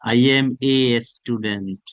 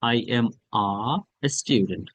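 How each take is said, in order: First: The article is said as a full 'ay'. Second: The article is said as a short open 'uh'. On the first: The speaker calls it wrong. "এখানে কেউ এ বলবেন না" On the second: The speaker calls it right. "হা করে ছেড়ে দিবেন, আ হয়ে যাবে"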